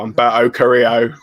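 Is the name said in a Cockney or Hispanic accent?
Cockney. The name is said in a Cockney accent.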